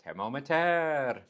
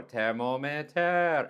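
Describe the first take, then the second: First: "Thermometer." louder, slow and falling; wrong tone, repeated. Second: "Thermometer." slow, louder and higher; slow it down and spell out each syllable; said slower. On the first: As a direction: insist on Thermometer, slowly. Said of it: "I'm like". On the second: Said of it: "I try to say slower". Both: Retold or imitated.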